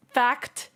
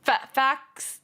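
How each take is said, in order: First: "fact" with a crisp, clearly released final T; T enunciated. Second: "facts" said as "fax" with no T sound; dropping the T. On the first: Streamer showing the careful version: "fact" with a sharp T. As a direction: land hard on the T of "fact". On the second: Streamer copying how chat hears "facts": "fax", T dropped. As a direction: clip "facts" down to "fax", swallowing the T. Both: Shown as a demonstration. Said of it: "You go facts to".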